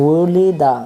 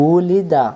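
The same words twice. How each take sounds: No difference in how they are said.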